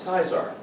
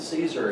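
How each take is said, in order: First: The word begins with a K sound. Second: The word begins with an S sound. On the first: "in Latin, the C is pronounced as a K" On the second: "You pronounce it Caesar"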